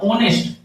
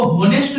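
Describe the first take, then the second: First: ऑनेस्ट starting straight on the vowel O, no H sound; silent h. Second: होनेस्ट with a clear spoken H at the start; wrong pronunciation. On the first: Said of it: "एच silent है". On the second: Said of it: "इसको होनेस्ट नहीं पढ़ना". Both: Shown as a demonstration.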